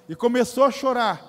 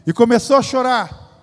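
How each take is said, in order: First: Said in the usual way. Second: Louder, landing the line on the congregation; the tears told with pulpit force; rising preaching emphasis. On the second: Acted. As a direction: push it out to the back pews. Repeated line, louder third take.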